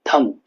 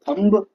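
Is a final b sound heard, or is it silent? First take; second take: silent; heard. First: The word ends on m with no b. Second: The word ends with an audible b sound. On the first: The speaker calls it right. "बोलने का तरीका pronunciation का" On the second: The speaker calls it wrong. "थंब तो नहीं बोलेंगे"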